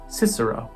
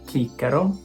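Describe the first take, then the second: First: The word begins with an s sound. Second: The word begins with a hard k sound. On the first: This is the English pronunciation. "In English" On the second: This is the classical Latin pronunciation. "In classical"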